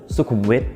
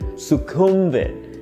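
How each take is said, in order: First: The stress is on the final syllable. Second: The stress is on the middle syllable. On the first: The speaker calls it right. "The stress is on the final syllable" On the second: The speaker calls it wrong. "The stress falls on the middle syllable, the second syllable"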